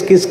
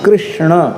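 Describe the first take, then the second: First: The word is said as a short 'kis'. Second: The word is said fully as 'krishna'. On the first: The speaker calls it wrong. "उच्चारण कोई किस किस कहते" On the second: The speaker calls it right. "ये शुद्ध उच्चारण है"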